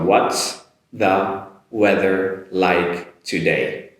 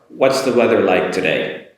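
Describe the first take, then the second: First: Each word is said separately and slowly. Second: The words are linked together and said quicker. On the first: "I'll say each word individually" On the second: "A little bit quicker on the linking part"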